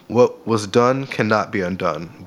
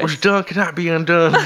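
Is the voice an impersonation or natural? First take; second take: natural; impersonation. First: It is read in the speaker's own voice. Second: It is said in an imitated politician's voice.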